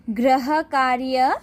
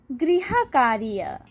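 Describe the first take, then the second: First: गृह कार्य read slowly with a rising, open tune; listing rise. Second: गृह कार्य closed off with a falling tune; final fall. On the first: Teacher reading the word list to pupils, slow rising tone. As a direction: say गृह कार्य as the first item in a list, voice lifting at the end. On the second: Teacher giving pupils the second reading, falling tone. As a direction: settle गृह कार्य down as the finished answer. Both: Shown as a demonstration. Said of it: "ये सारे शब्द पढ़कर सुनाऊंगी".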